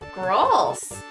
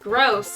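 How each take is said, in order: First: It is said in the local small-town accent. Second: It is said in the speaker's usual accent. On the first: Others in the town say it this way. "They say it like this. They say it like gross" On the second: This is how the speaker normally says it. "I said it the way that I said it"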